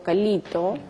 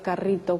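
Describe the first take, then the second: First: The middle consonant is an l sound. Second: The middle consonant is a trilled r sound. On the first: A child with a speech sound disorder says it this way. The speaker calls it wrong. "pronuncio este, hasta que soy más grandecito" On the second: This is the standard adult pronunciation. The speaker calls it right. "en lugar de carrito"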